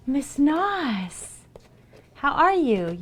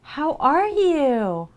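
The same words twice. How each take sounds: First: High, loud hello; light up at a friend; much higher, louder welcome; excited greeting. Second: High, loud, very slow singsong hello; much higher, louder, stretched-out how are you; drawn-out excited greeting. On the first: Greeting a new chatter. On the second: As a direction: stretch it out gushing at a friend. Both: Real, not acted.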